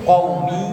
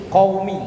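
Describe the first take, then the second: Both takes have the same delivery.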